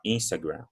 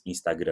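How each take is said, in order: First: "Instagram" as IN-sta-gram, first syllable stressed; English pronunciation. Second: "Instagram" as ees-ta-GRUN with nasal ending; Portuguese-style "Instagram"; Portuguese pronunciation. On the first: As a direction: sound the n and final m in "Instagram". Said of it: "eu vou falar Instagram". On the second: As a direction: say "Instagram" with Brazilian nasal vowels. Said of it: "não vou falar". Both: Shown as a demonstration.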